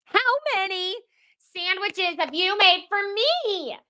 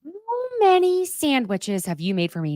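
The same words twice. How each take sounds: First: High, strained mock scream. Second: Higher, milder demo yell; mild mock scream. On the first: Host reenacts the sandwich scream, much higher. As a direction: scream it out in pent-up frustration. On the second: Shown as a demonstration. Host demos the scream for listeners, only mildly higher. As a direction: show how to let the frustration out. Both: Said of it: "just scream out".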